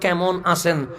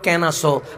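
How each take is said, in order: First: The phrase is said in full with every sound. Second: The phrase is said shortened with sounds dropped. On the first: "আপনারা বলেন কেমন আছেন" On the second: "ময়টা ফেলে দিয়েছি"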